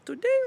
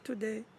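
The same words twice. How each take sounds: First: The word is said on a high pitch. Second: The word is said on a middle pitch. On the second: "or middle"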